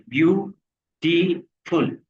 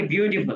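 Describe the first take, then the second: First: beautiful slowly split into three separate syllables, ब्यू-टी-फुल. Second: Said in the usual way. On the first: Shown as a demonstration. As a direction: break beautiful into slow, distinct syllables for counting. (Beautiful को धीरे-धीरे तीन हिस्सों में तोड़कर, ब्यू-टी-फुल) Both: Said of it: "कितने syllable है".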